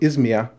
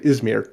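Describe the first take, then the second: First: The name is said with a German pronunciation. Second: The name is said with an English pronunciation. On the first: "in German" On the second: "in English"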